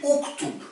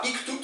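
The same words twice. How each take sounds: First: Uktub with a rounded u at the start, softly stressed; correct form uktub. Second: Iktub with a front i at the start, given as the mistake; wrong form iktub. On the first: Teacher gives learners the right imperative form. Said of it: "c'est uktub". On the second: Teacher shows the wrong imperative before the right one. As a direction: say iktub with an i, then correct it. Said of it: "c'est pas iktub". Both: Shown as a demonstration.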